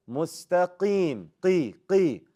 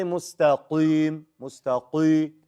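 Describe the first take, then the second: First: Slow, drawn-out MUSTAQIM with the qaf not too heavy; moderately heavy qi. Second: Slow, exaggeratedly heavy, dark qi in "mustaqim, mustaqi"; super heavy qi. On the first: Teacher models Mustaqim for the class, moderately heavy qi. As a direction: say qi with a lighter, clear ee vowel. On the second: Teacher shows students what not to say, super heavy qi. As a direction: overdo the thick back-of-mouth qaf in mustaqim. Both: Shown as a demonstration. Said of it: "Don't make it super heavy".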